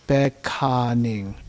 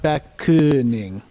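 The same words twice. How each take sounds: First: The vowels are open and wide. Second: The vowels are closed and narrow. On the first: The speaker calls it right. "Everything open" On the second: The speaker calls it wrong. "not beckoning"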